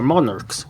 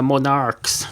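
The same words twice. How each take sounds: First: Said in the usual way. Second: Monarchs drawn out as "mon-ARKS"; alternative pronunciation. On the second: Real, not acted. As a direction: say monarchs slowly, leaning on "arks". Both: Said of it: "whatever you call them".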